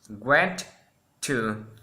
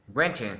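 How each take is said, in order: First: Both T sounds are said separately. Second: The two T sounds merge into one. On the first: The speaker calls it wrong. "Instead say" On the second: The speaker calls it right. "normally we say"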